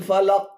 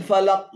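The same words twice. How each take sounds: The two takes are said the same way.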